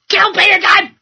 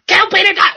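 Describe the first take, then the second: First: High, loud yelled outburst; mock outburst. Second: High, loud yelled outburst again; mock outburst.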